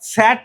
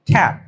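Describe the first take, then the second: First: The word begins with an s sound. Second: The word begins with a k sound. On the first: The speaker calls it wrong. "স্যাট না হয়ে" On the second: The speaker calls it right. "the sound is খ"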